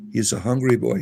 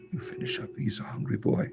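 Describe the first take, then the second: First: Said in the usual way. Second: Soft unvoiced whisper; ASMR whisper. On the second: Shown as a demonstration. Vlogger whispering over the rabbit eating, ASMR style. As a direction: breathe the words out, no voice at all. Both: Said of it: "This is rabbit A S M R here".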